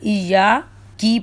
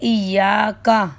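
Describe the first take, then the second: First: The word ends with an i vowel. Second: The word ends with an a vowel. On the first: The speaker calls it wrong. "लेकिन ज़ेर पढ़ दिया" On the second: The speaker calls it right. "काफ के ऊपर ज़बर है"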